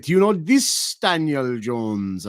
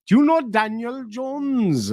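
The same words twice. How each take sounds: First: Slow question leaning on "this"; single out "this" with a weighted emphasis; stress on THIS. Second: Slow, high retold question; high-pitched casual inquiry. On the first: Retold or imitated. Showing a photo to a local, "this" emphasised. Retold follow-up singling out one man. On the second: Asking a local about a common name, high and drawn out.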